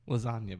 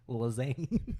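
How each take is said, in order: First: The word ends with a 'nya' sound. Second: The word ends with a 'ne' sound.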